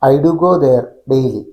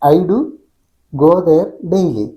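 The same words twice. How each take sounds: First: The only pause comes after "there". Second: The first pause comes after "do". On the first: "ഐ ഡു ഗോ there എന്ന് ഒറ്റ വാക്കിൽ പറഞ്ഞിട്ട് gap, പിന്നെ daily" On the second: "ഐ ഡു ഒരുമിച്ച് പറഞ്ഞതിന് ശേഷം ഗോ there ഒരുമിച്ച് പറഞ്ഞതിന് ശേഷം പിന്നെ ഡെയിലി"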